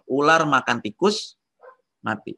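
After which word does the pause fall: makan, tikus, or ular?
tikus. The pause falls after the word tikus. The snake died because it ate a rat. "Jadi gara-gara makan tikus ularnya mati"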